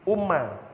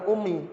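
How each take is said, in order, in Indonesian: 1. Kata itu berakhir dengan bunyi a. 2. Kata itu berakhir dengan bunyi i. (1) "Umma Abdullah bukan Ummi" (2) "bukan Ummi"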